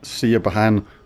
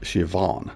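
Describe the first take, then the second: First: The middle letters are sounded as B and H. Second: The middle letters are sounded as a single V. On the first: The speaker calls it wrong. "really weird pronunciations of this" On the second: The speaker calls it right. "The B and H is pronounced as a V"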